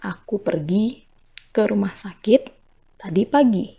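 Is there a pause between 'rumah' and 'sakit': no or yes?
no. No pause separates rumah from sakit. The speaker went to the hospital this morning.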